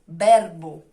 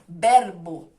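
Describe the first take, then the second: First: It has a Spanish accent with a crisp r. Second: The same.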